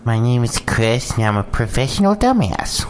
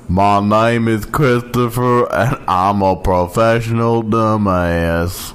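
First: It is not a Forrest Gump impression. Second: It is said as a Forrest Gump impression.

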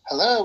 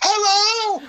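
First: It is said at a normal volume. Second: It is shouted loudly.

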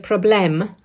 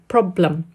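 First: The second vowel is a full, clear vowel. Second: The second vowel is a weak schwa sound. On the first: The speaker calls it wrong. "they'll say problème" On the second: The speaker calls it right. "it's actually a weak sound"

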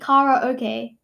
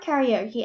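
First: The first part rhymes with 'Lala'. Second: The first part does not rhyme with 'Lala'. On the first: The speaker calls it right. "it actually rhymes with Lala okay" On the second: The speaker calls it wrong. "it's not karaoke"

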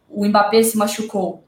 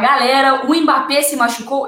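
First: It is said in a plain, neutral tone. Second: It is said cheerfully, with a smile.

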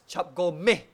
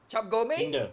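First: The last syllable ends in a short 'eh' vowel. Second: The last syllable ends in an 'ay' vowel.

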